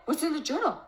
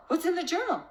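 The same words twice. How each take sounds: First: Higher, alarmed mock-panic question; panicked mom. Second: More panicked. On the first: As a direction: play the mom losing her footing. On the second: Retold or imitated. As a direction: escalate the alarm on the repeat. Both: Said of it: "Instead of the mom going into distortion".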